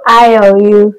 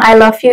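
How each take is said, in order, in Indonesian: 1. Diucapkan dengan logat Vietnam. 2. Diucapkan dengan logat bahasa Inggris biasa. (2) "Kalau orang Vietnam bilang"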